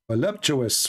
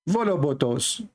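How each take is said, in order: First: The middle has a clear p sound. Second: The middle has a b sound, no p. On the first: The speaker calls it right. "it's far away from the way I say it" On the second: The speaker calls it wrong. "I know that you are making fun of the way I say it"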